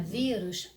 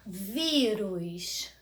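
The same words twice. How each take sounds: First: Said in the usual way. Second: Vírus drawn out on a long first "ví"; calling the word. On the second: Shown as a demonstration. Teacher calling the word for pupils, long stressed ví. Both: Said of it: "Basta você chamar a palavrinha".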